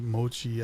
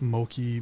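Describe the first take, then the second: First: The middle consonant is a ch sound. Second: The middle consonant is a k sound. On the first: The speaker calls it right. "Mochi, as in chi" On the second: The speaker calls it wrong. "not Moki"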